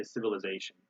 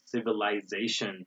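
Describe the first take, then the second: First: "civilization" with -uh-ZAY-shun; American "civilization", reduced vowel before z; American pronunciation. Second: "civilization" with -eye-ZAY-shun; British "civilization", like civil-eyes-ation; British pronunciation. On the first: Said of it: "We say civilization". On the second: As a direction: say "civilization" with long i before z. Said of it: "most British accents, they say". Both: Shown as a demonstration.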